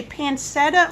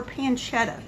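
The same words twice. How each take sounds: First: "pancetta" with an s sound in the middle; own pronunciation of pancetta. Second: "pancetta" with a ch, pan-CHET-a; "pancetta" with a ch sound in the middle; Bob's pronunciation of pancetta. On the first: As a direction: say "pancetta" as pan-SET-a, with no ch. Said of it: "I say pancetta". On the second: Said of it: "and Bob says". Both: Shown as a demonstration.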